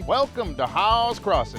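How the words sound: It is said in a Western cowboy voice.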